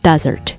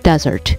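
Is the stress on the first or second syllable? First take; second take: first; first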